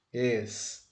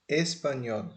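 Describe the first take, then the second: First: "Espanhol" split into es, pa, nhol; syllable by syllable. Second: Said in the usual way. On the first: Shown as a demonstration. Teacher dividing the word into three, "Espanhol" syllable by syllable. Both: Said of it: "Nós podemos dividir ela em três".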